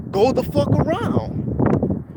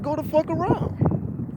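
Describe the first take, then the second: First: High drawn-out yell; mock angry shout from a car; retold yell. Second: Imitating the driver yelling again; retold yell. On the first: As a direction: bark it out slow and high. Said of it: "he yells out". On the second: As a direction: stretch it out in a high mock shout.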